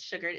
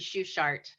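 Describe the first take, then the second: First: The name is said the American English way. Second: The name is said the German way. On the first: This is how the family now says it. "We Americanized it" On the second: This is the original form of the name. "It's supposed to be"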